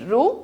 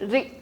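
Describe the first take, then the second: First: The syllable is said with an oo vowel. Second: The syllable is said with an ee vowel. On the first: The speaker calls it wrong. "Don't say it रू" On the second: The speaker calls it right. "से it री"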